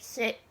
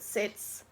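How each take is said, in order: First: The word ends with a plain t sound. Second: The word ends with a ts sound. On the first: The speaker calls it wrong. "I don't say it like sit" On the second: The speaker calls it right. "I say it with an S"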